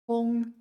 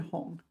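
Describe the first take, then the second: First: The syllable is said with a high level tone. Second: The syllable is said with a dipping tone. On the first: "first tone Hong" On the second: "that's third tone Hong"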